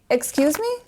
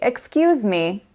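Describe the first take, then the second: First: It is said in a confused, questioning tone. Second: It is said in a polite tone.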